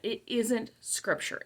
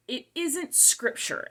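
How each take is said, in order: First: Quieter, slow repeat leaning on "isn't"; a softer, insistent restatement with "isn't" stressed; stress on isn't again. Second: Isn't drawn out slow and high, falling; slow, emphatic warning on "isn't"; stress on isn't. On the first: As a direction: press "isn't" softly but firmly. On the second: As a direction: lean hard on "isn't" in "it isn't scripture". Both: Real, not acted. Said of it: "I just wanna be very clear".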